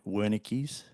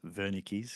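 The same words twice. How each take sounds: First: The name is said with an English pronunciation. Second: The name is said with a German pronunciation. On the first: "I will be pronouncing it" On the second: "technically it is Wernicke's because it's German"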